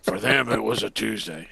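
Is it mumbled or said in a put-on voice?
put-on voice. It is said in a put-on character voice.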